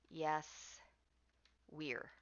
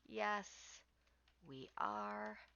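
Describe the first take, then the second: First: The words 'we are' are contracted to one syllable. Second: The words 'we are' are said in full. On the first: The speaker calls it wrong. "you cannot say" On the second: The speaker calls it right. "you must pronounce it clearly"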